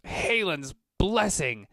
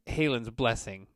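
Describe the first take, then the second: First: Much higher, louder, slow gasp of alarm; startled oath. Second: Said in the usual way. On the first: Acted. Merchant sees the Minotaur and blurts out a loud, shocked oath. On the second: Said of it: "He doesn't say Jesus".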